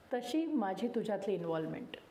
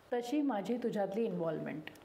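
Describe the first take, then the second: No difference in how they are said.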